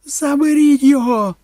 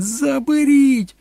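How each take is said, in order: First: Very high, loud panicked scream. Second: Slow, stretched, very high shriek; drawn-out scream. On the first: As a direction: scream for someone to pull the child off. (репетуючи) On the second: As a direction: scream it long, in desperation. (протяжно репетуючи) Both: A narrator's reading. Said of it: "репетувала Кетрін".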